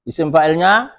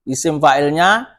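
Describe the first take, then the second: Both takes have the same delivery.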